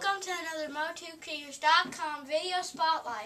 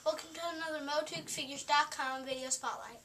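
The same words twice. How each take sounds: First: It is said in a louder, raised voice. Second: It is said in a low, quiet voice.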